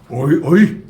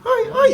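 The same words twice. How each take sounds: First: The voice is pitched low. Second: The voice is pitched high.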